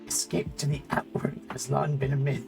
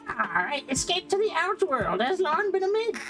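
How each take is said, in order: First: It is said in a weak bird voice. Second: It is said in a stronger bird voice.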